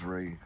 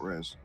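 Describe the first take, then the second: First: The word ends on a vowel, no s. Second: The word ends with an s sound. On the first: The speaker calls it right. "I forgot it was Ray" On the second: The speaker calls it wrong. "I've been pronouncing that wrong"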